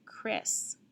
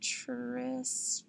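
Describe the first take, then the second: First: It begins with a k sound, as in kite. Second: It begins with a ch sound, as in chip. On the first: The speaker calls it right. "the one that does sound right" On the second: The speaker calls it wrong. "that doesn't sound right"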